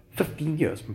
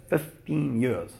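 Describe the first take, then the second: First: Said in the usual way. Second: "fifteen years" drawn out slowly; slow emphasis. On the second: Shown as a demonstration. Telling how long he stayed away, "fifteen years" said slowly.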